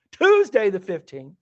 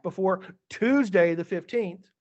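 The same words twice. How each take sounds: First: Louder, slow, leaning on Tuesday the fifteenth; repeated for emphasis. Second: Said in the usual way. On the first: Shown as a demonstration. Teacher repeating the deadline to a student, louder and slow. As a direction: spell out Tuesday the fifteenth deliberately for Layla. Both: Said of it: "so Layla".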